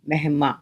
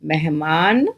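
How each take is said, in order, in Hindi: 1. शब्द अनुनासिक स्वर पर खत्म होता है। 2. शब्द पूरे 'न' की ध्वनि पर खत्म होता है।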